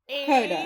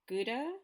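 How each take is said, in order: First: Gouda is said with a non-American pronunciation. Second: Gouda is said with an American pronunciation. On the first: "I used a non-American pronunciation for Gouda" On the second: "which you would say Gouda"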